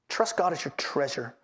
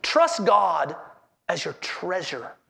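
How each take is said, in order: First: Hushed, sincere restatement of the heading; low, soft repeat. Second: Said in the usual way. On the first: Shown as a demonstration. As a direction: lower and softer, drawing the point home. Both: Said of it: "Here's our third heading".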